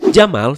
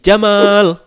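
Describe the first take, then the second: First: The a vowel is said short. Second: The a vowel is drawn out long. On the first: It means camel. "A-nya dibaca pendek menjadi Jamal" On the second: It means beautiful. "huruf A-nya dibaca panjang jadi Jamal"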